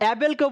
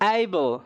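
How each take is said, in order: First: The first vowel sounds like in 'cat'. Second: The first vowel sounds like in 'day'. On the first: The speaker calls it wrong. "অ্যাবেলকেও বলবো না" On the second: The speaker calls it right. "আমরা বলবো এইবল"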